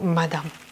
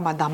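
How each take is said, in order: First: The final vowel is breathed out softly. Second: The final vowel is fully voiced. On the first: The speaker calls it right. "on expire un petit peu sur le A, le son euh, la dernière euh, syllabe, donc madame" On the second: The speaker calls it wrong. "c'est pas madame"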